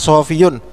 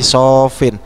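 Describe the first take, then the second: First: The word is said with three syllables, ending -iyun. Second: The word is said with two syllables, ending -in. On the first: This is the original underlying form. "aslinya sofiyun" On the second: This is the form after the sound change. "karena ada proses i'lal menjadi sofin"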